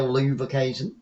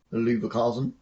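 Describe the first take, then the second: First: Leverkusen said as loo-ver-KAY-zen; one way to say it. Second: Leverkusen said as loo-ver-KAH-zen, softer and lower; other way to say it. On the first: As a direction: say Leverkusen with a long ay in the third syllable. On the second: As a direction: say Leverkusen with a broad ah in the third syllable. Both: Shown as a demonstration. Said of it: "depending how you wanna say it".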